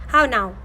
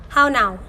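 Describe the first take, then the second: The two takes are said the same way.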